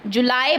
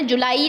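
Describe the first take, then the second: First: जुलाई said the English way, ju-lye; teacher shows English जुलाई; correct July. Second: जुलाई said the Hindi way, ju-laa-ee; the mistaken Hindi जुलाई; teacher shows the wrong जुलाई; wrong July. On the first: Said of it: "जुलाई बोलना है". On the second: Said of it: "जुलाई नहीं बोलना है". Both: Shown as a demonstration.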